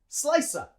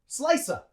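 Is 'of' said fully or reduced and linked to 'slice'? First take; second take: reduced; reduced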